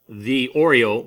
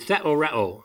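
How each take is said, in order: First: It sounds like 'the' plus the cookie 'Oreo'. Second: It is said as one word, 'theoreo'. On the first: The speaker calls it wrong. "it does look like the Oreo" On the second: The speaker calls it right. "but it's actually theoreo. See, I pronounce it differently"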